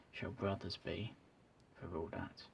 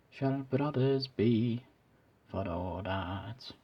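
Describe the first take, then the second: First: Soft whispered quote fading out; whispering. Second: Scottish accent. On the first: Real, not acted. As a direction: hush it down to a whisper. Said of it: "I'm not usually whispering". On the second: Shown as a demonstration. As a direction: swell into the line in Scottish accent. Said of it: "not the best Scottish accent I've ever done".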